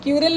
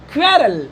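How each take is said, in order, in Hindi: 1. यह शब्द 'ky' ध्वनि से शुरू होता है। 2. यह शब्द 'kw' ध्वनि से शुरू होता है। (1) "ऐसा नहीं कि क्यूरल क्यूरल क्यूरल नहीं" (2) "तो ये क्वेरल बोलेंगे"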